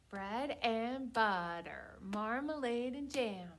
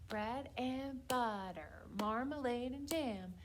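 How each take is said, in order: Both takes have the same delivery.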